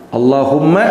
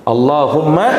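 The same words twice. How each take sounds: The two takes are said the same way.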